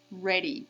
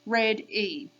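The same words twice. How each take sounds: First: Said in the usual way. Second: "Red E" as two separate beats; split into syllables. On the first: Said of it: "Let's count the sounds". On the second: Shown as a demonstration. Teacher counting syllables with kids, split in two. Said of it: "Karate hands up".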